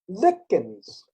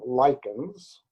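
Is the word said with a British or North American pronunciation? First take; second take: British; North American. First: It is said with a British pronunciation. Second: It is said with a North American pronunciation.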